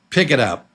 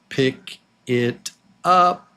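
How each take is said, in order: First: The words run together as one. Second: Each word is said separately.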